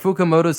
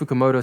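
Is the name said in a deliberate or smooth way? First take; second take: deliberate; smooth. First: The name is said slowly and heavily emphasized. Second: The name is said lightly within a flowing sentence. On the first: The dub was still learning the name. The speaker calls it wrong. "they really emphasized the pronunciation ... the line delivery was a bit stilted" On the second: The dub had grown comfortable with the name. The speaker calls it right. "they're able to make it flow a little bit better"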